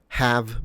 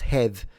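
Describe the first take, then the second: First: The word is said in a non-Kiwi accent. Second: The word is said in a Kiwi accent.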